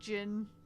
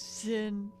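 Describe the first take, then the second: First: The name begins with a J sound. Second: The name begins with a Z sound. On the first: The speaker calls it right. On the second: The speaker calls it wrong.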